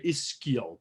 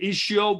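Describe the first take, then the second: First: The middle consonant sounds like 'sk'. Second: The middle consonant sounds like 'sh'. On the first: "some people say ischial because it's an an S C H" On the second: "I say it ischial"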